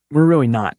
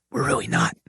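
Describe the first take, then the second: First: Said in the usual way. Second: Soft, breathy, unvoiced aside; whispered. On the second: Shown as a demonstration. Host confides that America is not leading in science, whispered. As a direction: lean in and whisper it like a secret. Whispered repeat of own claim.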